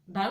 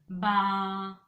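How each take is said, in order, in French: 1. La voyelle est brève, coupée net. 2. La voyelle est bien longue. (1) "le bas ici va être plus court" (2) "on va prononcer un long bas ... avec plusieurs A"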